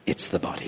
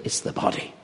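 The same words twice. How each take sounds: First: Whispered again, stress on "the"; whispered repeat. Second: Whispered, breathy emphasis; hushed whisper. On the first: Preacher repeating the point in a whisper. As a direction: lean on "the", barely voiced. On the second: Preacher whispering the point to the congregation. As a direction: breathe it out like a secret. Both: Shown as a demonstration. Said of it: "You don't stand up as a spirit".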